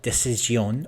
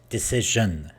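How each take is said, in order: First: The consonant before the ending is not zh. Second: The consonant before the ending is voiced zh. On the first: The speaker calls it wrong. "it's not decision" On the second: The speaker calls it right. "it's decision"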